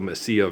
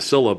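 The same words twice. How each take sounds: First: The double L sounds like a Y. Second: The double L sounds like an L. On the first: The speaker calls it right. "it's called the Mesilla Valley" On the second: The speaker calls it wrong. "because they pronounce it wrong"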